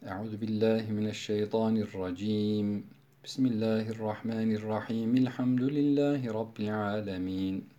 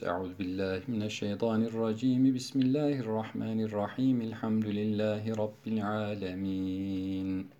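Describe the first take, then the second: First: There is a pause after the first phrase only. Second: All three phrases run together without any pause. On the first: "Kat'ul evvel vaslu sani yapıyorum" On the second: "Dördüncü vecih vaslül kül, hepsinde geçiş yapıyoruz"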